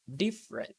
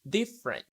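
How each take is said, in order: First: The vowel after the first syllable is dropped. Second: The same.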